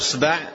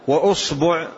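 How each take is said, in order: First: The b is followed by an a vowel. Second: The b is followed by a u vowel. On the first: "بفتح الباء" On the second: "بضم الباء"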